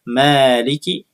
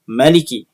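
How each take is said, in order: First: The vowel after the m is held long. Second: The vowel after the m is kept short. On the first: "Bisa dibaca dengan memanjangkannya" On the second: "dibaca dengan memendekkan lafaz mimnya"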